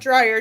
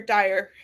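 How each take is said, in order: First: The name is said with an r after d. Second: The name is said with no r after d. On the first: The speaker calls it wrong. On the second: The speaker calls it right.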